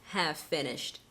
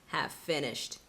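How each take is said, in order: Both takes have the same delivery.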